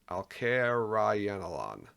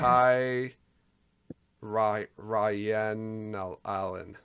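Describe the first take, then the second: First: The first part is said like 'al-kair'. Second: The first part is said like 'al-kai'.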